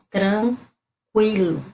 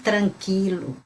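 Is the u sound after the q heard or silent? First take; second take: heard; silent. First: The u after the q is clearly heard. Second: The u after the q is silent. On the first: This is the Portuguese way of saying it. The speaker calls it right. "a gente pronuncia o U" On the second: This is the Spanish way of saying it. The speaker calls it wrong. "não tranquilo. Tranquilo é em espanhol"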